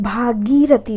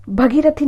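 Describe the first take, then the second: First: भागीरथी slowly with long 'bhaa'; correct pronunciation. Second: भगीरथी with a short first 'bha'; wrong pronunciation. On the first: Teacher correcting students, long slow 'bhaa-gee' in भागीरथी. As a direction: draw out the first syllables of भागीरथी. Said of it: "भागीरथी होता है". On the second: Teacher showing the mistake, short 'bha' in भगीरथी. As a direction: say भगीरथी quickly through the first vowel. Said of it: "भगीरथी नहीं होता है". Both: Shown as a demonstration.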